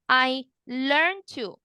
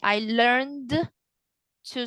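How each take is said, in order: First: The D is dropped and runs straight into 'to'. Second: The D at the end of 'learned' is clearly pronounced. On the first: The speaker calls it right. "link the D with the T" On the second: The speaker calls it wrong. "you pronounce the D"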